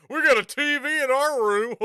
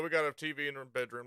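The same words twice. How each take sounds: First: We got a T V said louder and higher with a rising tune; mock proud. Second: Said in the usual way. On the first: Shown as a demonstration. Streamer mocking his own old-fashioned brag about the TV. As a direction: announce owning a TV like it's nineteen ninety-five. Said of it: "like it's fucking nineteen ninety-five". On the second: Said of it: "I said that like it's nineteen ninety-five".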